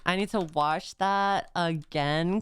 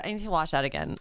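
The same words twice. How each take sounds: First: Low, deliberate insistence; drawn-out, lower restatement; slow and emphatic. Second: Quick, tumbling excitement; hurried and eager; rushed. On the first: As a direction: spread the words out with weight. Repeats it slowly for emphasis. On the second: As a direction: rattle it off in one breath. First take, rushed reaction. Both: Real, not acted.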